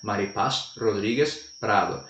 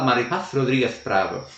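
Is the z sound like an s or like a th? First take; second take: s; th. First: The final z is pronounced like an s. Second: The final z is pronounced like a th. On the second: "Mas ela fala"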